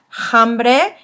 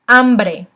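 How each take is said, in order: First: The word starts with an audible h sound. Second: The word starts with no h sound. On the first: The speaker calls it wrong. "I've been hearing some" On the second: The speaker calls it right. "when the H is by itself, it is silent"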